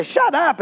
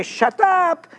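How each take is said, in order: First: "Shut up" pitched up, teasing fall; Shut up as slang. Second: "Shut up" said high and falling, playful; Shut up as slang. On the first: Preacher explaining slang, "Shut up" said teasingly high. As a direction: toss off "Shut up" as friendly slang. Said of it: "I say". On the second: Preacher to congregation, "Shut up" said high and playful. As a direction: say "Shut up" like you mean tell me more. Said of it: "When I say". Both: Shown as a demonstration.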